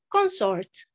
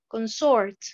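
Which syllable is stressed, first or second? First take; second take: first; second. First: The stress is on the first syllable. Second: The stress is on the second syllable. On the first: It is a noun. "la deuxième colonne, nous avons l'accentuation sur la première syllabe" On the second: It is a verb. "la première colonne, pratiquement, j'ai l'accentuation sur la deuxième syllabe"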